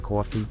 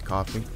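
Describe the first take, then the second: First: Coffee is said in a Brooklyn accent. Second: Coffee is said in a Midwestern accent. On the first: "My mother's from Brooklyn. She says coffee" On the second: "I lived in the Midwest for a little bit, so I say coffee"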